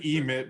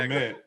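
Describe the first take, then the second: First: The first syllable is stressed and long. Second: The first syllable is short and unstressed. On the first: The speaker calls it wrong. "you can say emit, but it sounds like a power glove" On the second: The speaker calls it right. "you don't put that much emphasis on the E"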